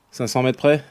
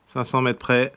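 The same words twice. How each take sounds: First: "Cinq cents mètres près?" with the pitch rising on "près"; asking tune. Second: "Cinq cents mètres près." flat and falling, stressing "cents"; confirming tune. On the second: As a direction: settle "Cinq cents mètres près." as a statement, pitch dropping at the end. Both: Real, not acted.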